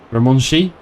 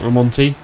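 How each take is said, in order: First: The t is said like a sh sound. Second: The t is said as a plain t sound. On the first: "Does that T have a weird pronunciation? Is it Ramonshi" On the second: "Not Ramonti?"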